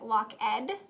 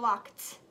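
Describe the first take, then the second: First: The ending is a separate 'id' syllable. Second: The ending is a voiceless 't' sound. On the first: The speaker calls it wrong. "the ed" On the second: The speaker calls it right. "it makes the t sound"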